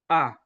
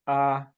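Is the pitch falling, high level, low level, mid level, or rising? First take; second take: falling; mid level. First: The pitch goes down during the vowel. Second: The pitch stays mid and level. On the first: "we have the falling tone" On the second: "the mid-flat tone"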